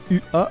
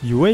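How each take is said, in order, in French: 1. Les lettres se prononcent à la française. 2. Les lettres se prononcent à l'anglaise. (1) "et non pas U A à la française" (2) "prononcée en anglais"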